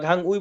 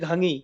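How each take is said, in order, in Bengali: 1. শেষ অংশটি আলাদা 'ui' হিসেবে উচ্চারিত হয়। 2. শেষ অংশটি 'i' হিসেবে উচ্চারিত হয়। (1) "আমরা ঘাং উই বলি না" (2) "আমরা বলি ঘাঙি"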